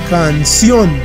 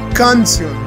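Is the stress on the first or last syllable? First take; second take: last; first. First: The stress is on the last syllable. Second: The stress is on the first syllable. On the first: The speaker calls it right. "notaremos que el acento está en la última sílaba" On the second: The speaker calls it wrong. "Si estuviera en la primera, sonaría algo como canción, lo cual no existe"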